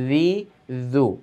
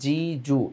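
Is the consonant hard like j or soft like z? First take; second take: soft z; hard j. First: The consonant is a soft buzzing sound. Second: The consonant is a hard j sound. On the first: The speaker calls it right. "এভাবে নরম ভাবে" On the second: The speaker calls it wrong. "এইভাবে জিমের সাথে মিলিয়ে ফেলে"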